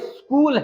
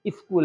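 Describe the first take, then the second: First: The word starts directly with the s sound. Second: An extra 'i' vowel comes before the s. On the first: The speaker calls it right. "ये स्कूल है" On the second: The speaker calls it wrong. "ना इस है"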